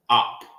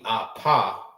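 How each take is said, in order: First: The word ends on the p with no vowel. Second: The word ends with a vowel after the p. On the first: The speaker calls it right. "It's op" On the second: The speaker calls it wrong. "it won't be apa"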